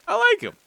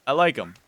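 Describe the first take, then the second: First: Very high, louder squeal of "I like 'em"; squeaky cute voice. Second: Said in the usual way. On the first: Pretend. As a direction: squeal it like a delighted kid. Repeats the line, squeaky.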